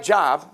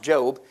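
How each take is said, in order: First: The vowel is a short O sound. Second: The vowel is a long O sound. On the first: The speaker calls it wrong. "it's spelled like Job" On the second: The speaker calls it right. "but it's pronounced Job"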